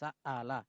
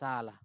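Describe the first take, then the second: First: The middle glottal stop is pronounced fully and firmly. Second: The middle glottal stop is softened, halfway to nothing. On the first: "এটা হলো কঠিন ভাবে পড়ছি" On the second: "কিন্তু আপনি এর মাঝামাঝি পড়তে পারবেন"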